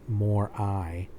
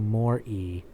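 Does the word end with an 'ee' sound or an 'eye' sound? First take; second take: eye; ee. First: The word ends with an 'eye' sound. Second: The word ends with an 'ee' sound. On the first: This is the teacher's pronunciation. The speaker calls it wrong. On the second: This is the corrected pronunciation. The speaker calls it right. "I corrected with scorn our religion teacher's Latin pronunciations"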